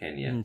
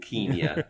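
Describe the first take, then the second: First: It uses the modern, local pronunciation. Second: It uses the older, posh British pronunciation. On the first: This is how the country's own people name it today. "I guess the actual Kenyans now call it Kenya" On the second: This is how it was named in colonial times. "It's a kind of posh old people's way to say Kenya"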